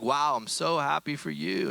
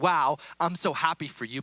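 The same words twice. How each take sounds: First: It is said in a mocking, sarcastic tone. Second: It is said warmly and sincerely. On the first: The speaker is not really glad for the other person. The speaker calls it wrong. "Not like" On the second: The speaker is genuinely glad for the other person. The speaker calls it right. "but not in a sarcastic way"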